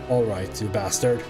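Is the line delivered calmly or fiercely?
calmly. It is said mildly, without much force. The speaker calls it wrong.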